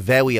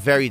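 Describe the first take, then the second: First: It is said with no English R sound. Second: It is said with a plain English R sound. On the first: This mocks how Japanese speakers are said to talk. "they say very or whatever" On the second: This is the usual English pronunciation. "instead of saying very"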